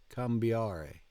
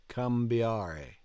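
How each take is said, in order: The two takes are said the same way.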